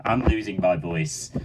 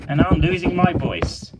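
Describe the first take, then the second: First: Low, worn-out presenter voice; tired host, running out of voice; fading voice. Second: Put-on bright, higher kids' host voice; cheery host line. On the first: Pretend. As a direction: sign off as if the voice is giving out. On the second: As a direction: announce it like a bubbly presenter.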